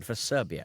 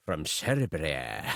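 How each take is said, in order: First: Said in the usual way. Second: Slow, low Scottish drawl; Scottish accent. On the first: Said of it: "I'm doing a Scottish accent again". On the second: Shown as a demonstration. Reading a listener's letter about his friend, in a Scottish accent. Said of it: "I'm doing a Scottish accent again for Serbia".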